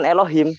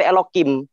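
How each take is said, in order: First: "Elohim" dengan bunyi H lembut; lafal biasa Elohim. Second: "Elokim" dengan K menggantikan H; lafal dialek lain. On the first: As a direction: ucapkan H, bukan K, pada "Elohim". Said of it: "menyebutnya itu bukan Elohim". ("Elohim" dengan H di tengah) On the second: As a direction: tegaskan bunyi K pada "Elokim". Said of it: "ada dialek lain ya". ("Elokim" dengan K, bukan H) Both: Shown as a demonstration.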